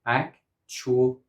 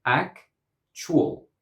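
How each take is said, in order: First: "actual" split in three beats, ac-tu-al; three syllables. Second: "Actual" split in two beats, ac-tual; two syllables. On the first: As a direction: say "actual" as AK, CHOO, ul. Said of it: "In Longman and Cambridge Dictionary". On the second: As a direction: say "Actual" as AK, pause, chwul. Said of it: "In Oxford Dictionary". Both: Shown as a demonstration.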